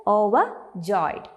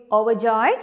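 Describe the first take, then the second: First: "Overjoyed" slowly broken into parts; syllable by syllable. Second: Said in the usual way. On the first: Shown as a demonstration. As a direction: say "Overjoyed" slowly as over, pause, joyed. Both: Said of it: "How do you break down the pronunciation?".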